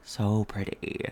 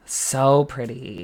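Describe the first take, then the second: First: Slow low so pretty. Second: Drawn-out so pretty. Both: Real, not acted. Echoing compliment.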